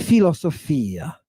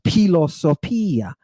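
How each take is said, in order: First: It starts with a plain f sound. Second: It starts with a breathy p sound. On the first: "ninety-nine percent of the classes that I was ever around pronounced it philosophia" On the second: "this is really an aspirated P, so it should be pronounced philosophia"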